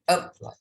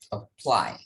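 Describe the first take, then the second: First: The stress is on the first syllable. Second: The stress is on the second syllable. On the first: The speaker calls it wrong. "it will be wrong if you say that apply" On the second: The speaker calls it right. "So stress on the second syllable"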